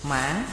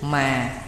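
First: The pitch dips down and rises back. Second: The pitch starts low and falls gently. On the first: "Hồi thanh, thí dụ mã, dấu hỏi" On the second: "Trường bình thanh, thí dụ mà là dấu huyền"

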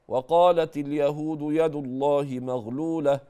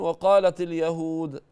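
First: The reading continues past al-yahud without stopping. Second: The reading stops after the word al-yahud. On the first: The statement is joined to what was said. The speaker calls it right. "أرجع قبل محل الوقف أقول" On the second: The statement is cut off from what was said. The speaker calls it wrong. "وقفت كده"

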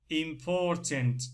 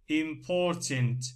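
No difference in how they are said.

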